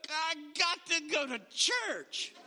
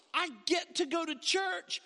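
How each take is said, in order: First: Dragging, grudging "I got to go to church" with a laugh; reluctant churchgoer. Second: Bright, eager "I get to go to church" with lifted pitch; eager churchgoer. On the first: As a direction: sound like it's a chore. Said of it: "woke up and go". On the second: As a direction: sound glad to be going. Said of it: "people who woke up and said". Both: Acted.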